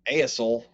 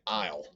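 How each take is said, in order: First: The two vowel letters are sounded separately. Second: The two vowel letters make one sound. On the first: The speaker calls it wrong. "We don't say" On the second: The speaker calls it right. "these two letters have a different sound when they're together"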